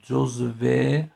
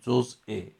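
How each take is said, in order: First: The middle consonant is a v sound. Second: The middle consonant is a glottal stop. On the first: "مثل جزوه" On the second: "همزه تو رو تلفظ کنیم"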